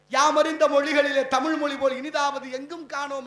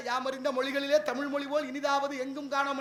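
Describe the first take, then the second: First: Louder, ringing recital of யாமறிந்த; declaimed quote. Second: Said in the usual way. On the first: Shown as a demonstration. Speaker to audience, proclaiming Bharathi's verse loudly. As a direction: proclaim Bharathi's line to the hall. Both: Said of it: "Bharathi சொன்ன வார்த்தை".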